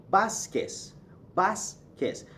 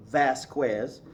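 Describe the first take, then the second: First: Vasquez said "BAHS-kes". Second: Vasquez said "VASS-kwez"; English mispronunciation. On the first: Teacher giving the actual name, Vasquez as "BAHS-kes". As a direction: Vasquez with b, no w, ending in s. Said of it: "V gives you a B sound". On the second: Teacher quoting many people, Vasquez mispronounced the English way. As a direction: Vasquez with a v and a kw glide. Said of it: "that's an English mispronunciation". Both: Shown as a demonstration.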